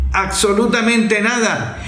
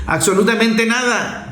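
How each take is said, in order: Both takes have the same delivery.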